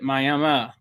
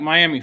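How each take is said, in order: First: It is said the local Oklahoma way. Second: It is said like the Florida city's name. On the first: This names the town in Oklahoma. "everybody pronounces it Miami" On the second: This names the city in Florida. "just like Miami, Florida"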